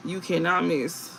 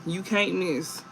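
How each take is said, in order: First: "cannot" spelled out, slower and firm; stress on cannot. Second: Said in the usual way. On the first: Shown as a demonstration. Reader insisting to viewers, "cannot" stressed. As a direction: lean on "cannot" and slow down.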